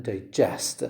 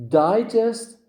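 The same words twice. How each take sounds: First: GEST in digest stressed, lower; stress on second syllable. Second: High DI in digest, punched; stress on first syllable. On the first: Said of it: "the stress is on the second syllable". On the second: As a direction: say digest as DI-gest. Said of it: "the stress is on the first syllable". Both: Shown as a demonstration.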